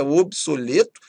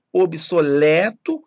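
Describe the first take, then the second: First: OBSOLETO with closed ê; timbre fechado. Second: OBSOLETO slow and loud with open é; timbre aberto. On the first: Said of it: "muita gente também queira". (obsoleto com ê fechado) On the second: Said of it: "têm timbre aberto". (obsoleto com é aberto) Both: Shown as a demonstration.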